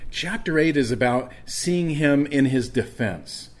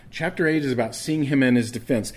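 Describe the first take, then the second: First: "eight" drawn out and leaned on, slowly; preacher spells out the outline, stressing "eight". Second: Said in the usual way. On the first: Shown as a demonstration. Preacher to congregation, slow emphatic "eight".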